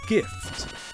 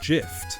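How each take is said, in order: First: The word begins with a hard G sound. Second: The word begins with a soft J sound. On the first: The speaker calls it right. "they gave me a Christmas" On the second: The speaker calls it wrong. "I don't say that somebody gave me a Christmas"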